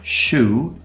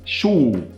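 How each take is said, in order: First: The vowel is only mildly rounded. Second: The vowel is strongly rounded and extreme. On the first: The speaker calls it right. "it's not as extreme" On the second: The speaker calls it wrong. "I don't say shoe"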